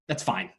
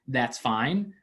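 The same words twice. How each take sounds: First: It sounds curt and displeased. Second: It sounds relaxed and sincerely okay. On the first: The person is actually not fine with it. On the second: The person really is fine with it.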